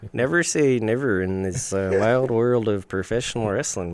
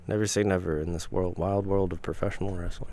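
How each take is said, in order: First: It is said in a put-on accent. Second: It is said in the speaker's ordinary voice.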